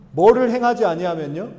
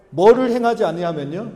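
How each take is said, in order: Both takes have the same delivery.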